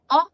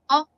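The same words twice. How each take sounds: No difference in how they are said.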